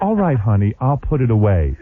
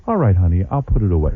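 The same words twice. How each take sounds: First: A touch of Stepford sweetness; gentle, compliant honey tone; Stepford wife. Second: Lightly voiced meek Stepford wife; sweet and obedient, a hint of a Stepford wife. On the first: Retold or imitated. Husband repeating it to wife, lightly sugary Stepford voice. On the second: Husband to wife, mildly sugary Stepford wife voice. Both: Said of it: "I was talking like a Stepford wife".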